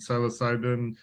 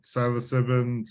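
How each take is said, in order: First: "psilocybin" with a long i in the third syllable; second pronunciation attempt. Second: "psilocybin" with a short i in the third syllable; tentative pronunciation. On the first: Host trying the drug name another way, saying "psilocybin" as sigh-lo-sigh-bin. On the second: Host unsure how to pronounce the drug name, saying "psilocybin" as sigh-lo-sib-in. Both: Real, not acted. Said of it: "don't know how to pronounce it".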